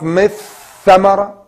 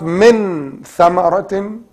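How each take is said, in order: First: The n merges fully into the following th. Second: The n is pronounced fully and clearly. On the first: "not mith ثمرة as idgham" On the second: "not min ثمرة as إظهار"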